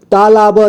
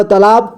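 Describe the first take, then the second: First: "तालाब" split as taa-laa-ba; beginner's reading of "तालाब" as taa-laa-ba; sounded out letter by letter. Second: Said in the usual way. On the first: Shown as a demonstration. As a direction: voice each syllable of "तालाब", final ba included. Teacher sounds out, then reads whole.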